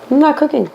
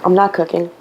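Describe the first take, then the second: First: "not" pitched high with a firm fall; defiant repeat. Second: Said in the usual way. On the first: Real, not acted. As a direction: up high, hit "not" and close it down hard.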